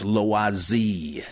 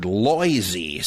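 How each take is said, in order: First: "Loisy" as lwah-ZEE, slowly; French "Loisy", lwah then a stressed ZEE; correct French pronunciation. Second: "Loisy" as LOY-zee; mispronunciation. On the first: Shown as a demonstration. Correcting the scholar's slip, "Loisy" as lwah-ZEE. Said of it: "that's Loisy". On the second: Retold or imitated. Quoting a famous scholar's slip, "Loisy" as LOY-zee. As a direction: rhyme the first syllable of "Loisy" with boy. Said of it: "get mispronounced".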